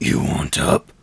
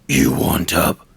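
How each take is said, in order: No difference in how they are said.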